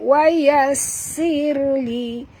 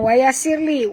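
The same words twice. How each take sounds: First: The s sound is doubled and held long. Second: The s sound is short and single. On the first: The speaker calls it right. "Dekat sin ada tasydid. Jadi ada dua sin kat sini" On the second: The speaker calls it wrong. "Dia bukan wa yassir li"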